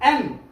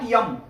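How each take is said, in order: First: It begins directly with a vowel sound. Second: It begins with a y sound. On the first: The speaker calls it right. "एम not यम" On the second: The speaker calls it wrong. "Not यम"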